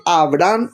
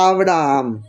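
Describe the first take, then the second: First: "Abraham" cut to two syllables, "A-bram"; name said as Abram. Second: "Abraham" with a drawn-out double "a", "A-bra-am"; name said as Abraham. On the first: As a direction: say "Abraham" as short Abram, one final "a". Le cambia Dios el nombre. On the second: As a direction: stretch the last part of "Abraham" into an extra syllable. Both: Shown as a demonstration.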